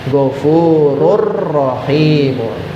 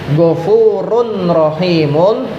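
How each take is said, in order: First: The n merges into the following r. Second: The n is kept before the r.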